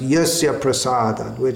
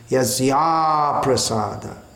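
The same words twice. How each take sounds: First: No extra vowel comes before prasada. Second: An extra 'a' vowel comes before prasada. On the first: By his mercy one has no hope. The speaker calls it wrong. "commonly this is pronounced yasya prasada" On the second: By displeasing him one has no hope. The speaker calls it right. "it should be that by displeasing him"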